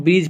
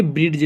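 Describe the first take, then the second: First: ब्रिज with no d sound, brij; ब्रिज said the right way; correct pronunciation. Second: ब्रिज with a hard d before j, brid-j; ब्रिज with the d sounded; wrong pronunciation. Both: Shown as a demonstration. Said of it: "ना कि ब्रिज नहीं पढ़ते".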